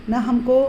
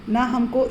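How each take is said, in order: No difference in how they are said.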